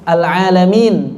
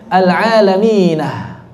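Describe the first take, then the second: First: The word ends on n with no h. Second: The word ends with an added h sound. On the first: This is the usual reading. "jamak mudzakkar salim" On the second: This is a variant reading with an extra ha. "maka ditambah menjadi al-alaminah"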